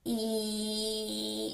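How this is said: The voice is squeezed and strained, like grunting. "lift up something really heavy"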